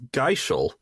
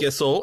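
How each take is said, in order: First: The middle consonant is a sh sound. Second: The middle consonant is a plain s sound. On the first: "I thought the H was in a different spot" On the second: "you were saying Gissel"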